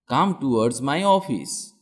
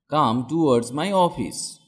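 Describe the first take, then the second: No difference in how they are said.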